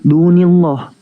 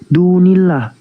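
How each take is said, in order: First: The l sound in 'illah' is heavy and thick. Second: The l sound in 'illah' is light and thin. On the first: The speaker calls it wrong. "bukan dunillah" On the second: The speaker calls it right. "itu dibaca dunillah"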